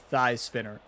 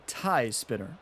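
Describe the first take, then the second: First: The first word begins with a th sound. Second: The first word begins with a t sound. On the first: The speaker calls it wrong. "I pronounced it the thigh spinner" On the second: The speaker calls it right. "The tie spinner"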